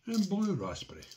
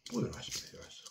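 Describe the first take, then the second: First: Said in the usual way. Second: Soft muttered repeat to self; quiet echo. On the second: Real, not acted.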